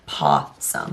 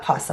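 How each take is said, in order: First: It is said to rhyme with awesome. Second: It is said like the animal name. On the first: The speaker calls it right. "like awesome" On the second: The speaker calls it wrong. "Not possum like the animal"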